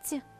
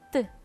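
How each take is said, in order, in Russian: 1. Звук «т» мягкий, с палатализацией. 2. Звук «т» твердый, без палатализации. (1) "произносим мягко" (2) "произносим твердо"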